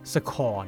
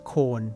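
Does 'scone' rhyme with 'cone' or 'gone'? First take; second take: gone; cone. First: The vowel is short, rhyming with gone. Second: The vowel is long, rhyming with cone. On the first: It is seen as the posh way. "ไม่ใช่อ่านว่าสคอน" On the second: It follows regular English spelling rules. "แล้วพอใส่ s เข้าไปเนี่ยก็ต้องอ่านว่าสโคน"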